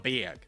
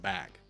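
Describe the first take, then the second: First: Bag is said with an Oklahoma pronunciation. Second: Bag is said with a standard pronunciation. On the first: "she called it a a, a, a bag" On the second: "instead of a bag"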